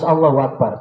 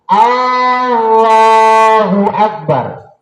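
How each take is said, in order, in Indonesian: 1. Vokal awal pada Allahu dibaca pendek. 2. Vokal awal pada Allahu dipanjangkan. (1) "Harus Allahu Akbar" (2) "Tidak memanjangkan hamzah"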